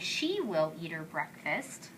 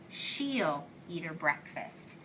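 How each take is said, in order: First: Two full words are said, she and will. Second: The two words merge into one short syllable. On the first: "instead of saying" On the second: "I will say"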